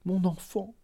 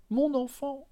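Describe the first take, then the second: First: Higher, softer stammer on mon enfant; first of two rising calls of mon enfant; stammering plea. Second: Second, higher repeat of mon enfant; rising stammer. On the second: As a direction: push mon enfant up in desperation. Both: A narrator's reading. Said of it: "Elle balbutia".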